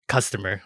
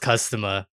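First: Said in the usual way. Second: Accented CUSTOMER, ending in "-uh" with no r; non-rhotic accent on Customer; accidental accent. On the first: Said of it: "I don't know why I said that". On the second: Real, not acted. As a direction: slip into an accent, dropping the r in Customer. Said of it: "I said that in an accent".

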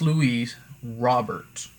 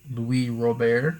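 First: Louis Robert read slowly, Robert with a sounded final T; English-style pronunciation. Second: Louis Robert as loo-EE roh-BAIR, silent T, questioning rise; attempted French pronunciation. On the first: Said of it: "I'm just reading dude's name". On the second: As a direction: try Louis Robert the French way, unsure and slow. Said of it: "I don't know". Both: Shown as a demonstration.

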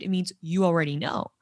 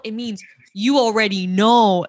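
First: Said in the usual way. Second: "you already know" pushed louder and stretched; emphatic, louder explanation, drawing out "know"; insistent repeat. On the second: Retold or imitated. Repeats it insistently to puzzled friend.

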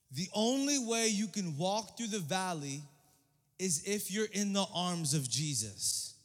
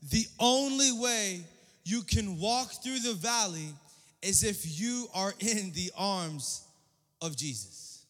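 First: The only way you can walk through the valley, drawn out slowly and weighted; sermon key line spoken deliberately; slow emphatic statement. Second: The only way you can walk through the valley, slower, the word only leaned on hard; the preacher drives home his one point; slower emphatic restatement. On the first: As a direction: lay down the main point slowly, each word weighted. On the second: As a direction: repeat the key line even slower, pressing on only. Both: Shown as a demonstration. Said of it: "My one point tonight".

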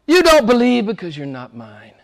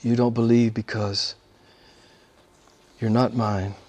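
First: A hint of Jesus rebuking. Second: Lower, softer echo of the quote; quiet repeat. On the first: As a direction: speak it as Jesus to the leaders. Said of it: "He says to the religious men". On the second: Real, not acted. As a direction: let it sink in softly. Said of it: "repeats quote softer".

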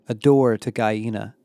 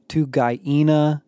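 First: Said in the usual way. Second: Slow, each syllable of "Guyena" drawn out; drawled, over-enunciated. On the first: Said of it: "over-enunciating the planet's weird name". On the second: A narrator's reading. Becky mocking Isaiah's odd planet name, drawn out slowly. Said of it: "Becky drawled, over-enunciating the planet's weird name".

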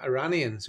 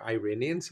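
First: "Iranians" with an AH in the second syllable; pronounced ih-RAH-nee-uns. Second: "Iranians" starting with EYE, stressed RAY; pronounced eye-RAY-nee-uns. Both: Shown as a demonstration. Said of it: "however we say it".

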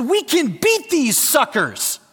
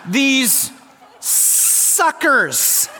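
First: S's slurred like F's through a mouthguard; mouthpiece lisp. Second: High, slurred S's through a mouthguard, laughing; mouthpiece lisp. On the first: Retold or imitated. Player rallying team through mouthguard, mock lisp. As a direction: talk round a football mouthpiece. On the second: Shown as a demonstration. Preacher demoing mouthguard lisp, laughing, high. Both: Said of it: "I had my mouthpiece in".

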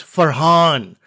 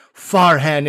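First: FARHAN said "fur-HAHN"; slow Farhan with a long stressed "hahn"; corrected pronunciation. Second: FARHAN said "FAR-han"; drawn-out Farhan with a flat American A in "han"; wrong pronunciation. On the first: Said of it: "It's not Farhan". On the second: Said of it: "she was immediately offended". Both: Retold or imitated.

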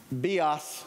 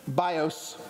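First: "Bios" said bee-ahs; Greek-class pronunciation. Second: Said in the usual way. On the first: Shown as a demonstration. Preacher respectfully quoting Greek class, "Bios" pronounced bee-ahs. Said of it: "the way Greg would say it in Greek class". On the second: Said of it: "is what you would see".

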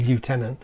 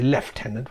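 First: "lieutenant" opening like French "lieu", no F; French-sounding pronunciation. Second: "lieutenant" with an F, starting LEF; the anglicised "lieutenant", lef-tenant; British pronunciation. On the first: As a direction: say "lieutenant" as lyoo-TEN-ant. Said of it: "it sounds French". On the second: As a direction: say "lieutenant" as lef-TEN-ant. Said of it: "we're gonna say lieutenant rather than". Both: Shown as a demonstration.

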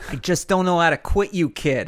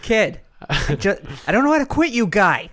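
First: Put-on higher, louder Boston accent; hammy Boston accent delivery. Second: Put-on much higher, louder Boston accent; over-the-top Boston accent. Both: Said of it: "in a Boston accent?".

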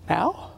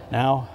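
First: Soft, unsure rising "Now?"; hushed "Now?" rising at the end; surprised question. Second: Lower, soft, falling "Now."; quiet, lower, closed "Now."; firm answer. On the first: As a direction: ask "Now?" with a rising, doubtful tune. Questioning the Lord's prompt. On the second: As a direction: settle it with a flat final "Now.". The Lord confirms firmly. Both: Retold or imitated.

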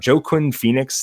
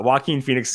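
First: "Joaquin" said as JOE-kwin; Joaquin mispronounced. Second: "Joaquin" pronounced wah-KEEN; corrected Joaquin. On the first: Host naming the actor in Signs, Joaquin mispronounced as JOE-kwin. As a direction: say "Joaquin" with a hard J, like Joe plus quin. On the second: Host resuming his review after correction, Joaquin said wah-KEEN. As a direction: give "Joaquin" a W opening and a keen ending. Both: Real, not acted. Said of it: "I really need you to say Joaquin".

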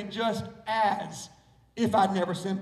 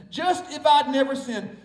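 First: "Just as" said in full, pause, then "if I'd never sinned"; careful Northern version with a distinct "as"; up-north careful pronunciation. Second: "just if I'd" run together like "justified", no "as"; Socastee local pronunciation. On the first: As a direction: separate out "as" after "Just", Northern style. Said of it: "if you're from up north, you might have to say". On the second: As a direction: say "just if I'd" as one Southern phrase. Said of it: "if you're from Socastee, you can say it like that". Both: Shown as a demonstration.

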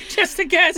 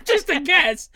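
First: Sarcastic. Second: Laughing sarcastic. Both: Real, not acted. Sarcastic aside.

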